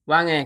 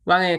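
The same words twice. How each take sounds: The two takes are said the same way.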